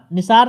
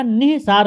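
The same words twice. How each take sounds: First: "निसार" as ni-saar, no breath after "नि"; wrong form nisaar. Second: "निसार" as nih-saar, slow, with an h after ni; corrected form nihsaar. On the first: Teacher showing students the wrong word, "निसार" as ni-saar. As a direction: say "निसार" straight through as ni-saar. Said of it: "ये निसार गलत होगा". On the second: Teacher correcting students, "निसार" slowly as nih-saar. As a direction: breathe an h inside "निसार": ni-hi-saar. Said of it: "निसार हो जाएगा". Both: Shown as a demonstration.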